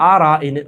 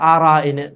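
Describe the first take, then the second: Both takes have the same delivery.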